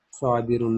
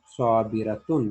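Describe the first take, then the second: First: साबिरुन said as the masculine form, ending -un with no ta; wrong masculine form. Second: साबिरतुन said slowly with the ta before -un; correct feminine form. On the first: Teacher showing students the wrong form साबिरुन. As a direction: say साबिरुन as the form not to use. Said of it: "साबिरुन नहीं कहेंगे". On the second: Teacher giving students the correct form साबिरतुन, slowly. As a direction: draw out साबिरतुन as the right answer. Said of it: "बल्कि साबिरतुन". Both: Shown as a demonstration.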